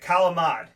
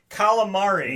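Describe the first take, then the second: First: The word is said with its ending dropped. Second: The word is said with its full ending.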